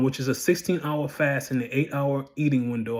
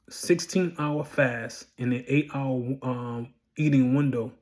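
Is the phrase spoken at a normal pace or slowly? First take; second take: normal; slowly. First: It is spoken at a normal, quicker pace. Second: It is spoken slowly and more clearly.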